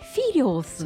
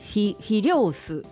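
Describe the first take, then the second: First: The accent is on the first syllable. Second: The accent is not on the first syllable. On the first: The speaker calls it right. "そのフィにアクセントがある" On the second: The speaker calls it wrong. "そのフィリオスではなくて"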